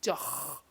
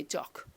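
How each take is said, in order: First: "Doch" with a long snoring ch at the end; throaty ch. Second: "doc" closed with a plain K; K ending. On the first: Teacher showing learners how to constrict the throat, throaty ch. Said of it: "constricting your throat a little bit". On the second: Teacher showing the easier way out, K ending. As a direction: end "doc" on a K stop, no rasp. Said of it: "they just stick in a K". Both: Shown as a demonstration.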